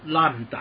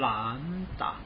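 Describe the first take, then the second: First: The first syllable is said with a falling pitch. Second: The first syllable is said with a rising pitch. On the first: The speaker calls it wrong. "兰花掉到楼下去了" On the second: The speaker calls it right. "那个兰花是向上的"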